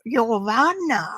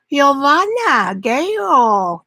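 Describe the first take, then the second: First: Arkansas Italian accent. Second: Slow, drawn-out Italian name in an Arkansas accent. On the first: Painter repeating the name for viewers in an Arkansas Italian accent. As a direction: croon Giovanna in a playful Arkansas Italian accent. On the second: Painter showing viewers her Arkansas Italian accent on the name. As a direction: stretch out Giovanna the Arkansas Italian way. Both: Shown as a demonstration. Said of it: "That's my Arkansas Italian accent".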